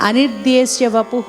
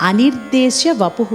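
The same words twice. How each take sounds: Both takes have the same delivery.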